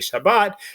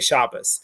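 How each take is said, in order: First: It is said in Modern Hebrew pronunciation. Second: It is said in Ashkenazic pronunciation.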